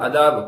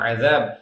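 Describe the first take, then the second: First: The middle consonant is a plain d stop. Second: The middle consonant is a hissing fricative. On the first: The speaker calls it wrong. "நம்ம சும்மா தமிழ்ல சொன்ன சொல்லிக்கிறோம்" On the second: The speaker calls it right. "ஆனா அதாப்னு சொல்லக்கூடாது"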